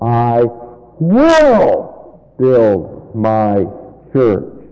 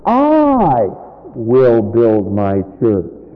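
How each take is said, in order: First: The word 'will' carries the main stress. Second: The word 'will' carries no special stress.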